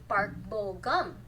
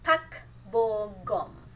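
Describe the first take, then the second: First: The name is said with English-style sounds. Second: The name is said with Korean-style sounds. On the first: The speaker calls it wrong. "It's not actually Park Bo Gum" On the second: The speaker calls it right. "his name is actually Pak Bo Gum"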